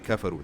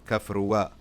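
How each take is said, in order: First: The word ends without an extra sound. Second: An extra sound is added at the end. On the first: The speaker calls it right. "You just say kafaru" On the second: The speaker calls it wrong. "You don't say kafruwa"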